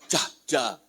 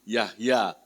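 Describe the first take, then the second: First: The name begins with a J sound. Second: The name begins with a Y sound. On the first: The speaker calls it wrong. "Orang panggil saya Jahja" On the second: The speaker calls it right. "dibacanya Y"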